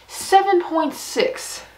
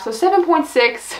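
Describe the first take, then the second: First: Slow, drawn-out, higher, like a suspenseful reveal; dramatic rating reveal. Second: Said in the usual way. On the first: Real, not acted. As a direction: stretch every number out to build suspense.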